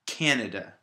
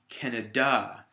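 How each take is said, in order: First: The stress is on the first syllable. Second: The stress is on the last syllable. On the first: The speaker calls it right. "The first syllable is stress" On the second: The speaker calls it wrong. "if I put it at the end on the D A"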